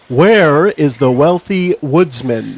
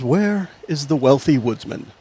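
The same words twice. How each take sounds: First: It is said loudly. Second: It is said at normal volume.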